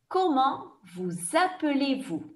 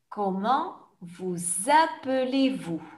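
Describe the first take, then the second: First: The question is said at a fast pace. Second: The question is said at a slow pace. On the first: "je vais poser la question rapidement comme dans un examen" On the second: "je vais reposer la question plus lentement"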